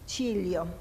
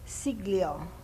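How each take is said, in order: First: The name is said with its original sounds. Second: The name is said with English sounds. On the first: "His real name is" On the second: "I pronounce it the, in the English way"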